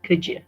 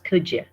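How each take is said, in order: First: The D and Y merge into a 'ja' sound. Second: The D and Y merge into a 'ja' sound.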